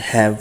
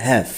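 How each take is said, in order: First: "হ্যাভ" said as hav, with an open a sound; "হ্যাভ" said short and clear, not as "haev"; pronouncing have. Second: "হ্যাভ" said firmly, as the last word of the sentence; "হ্যাভ" with an open a sound, stressed; pronouncing have. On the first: Teacher showing how to say "have", clearly. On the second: Teacher confirming the sound of "have", clearly. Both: Shown as a demonstration. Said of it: "এটার উচ্চারণ হবে হ্যাভ".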